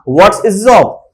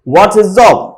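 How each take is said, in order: First: 'What is' is contracted and 'his' is weakened. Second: The same.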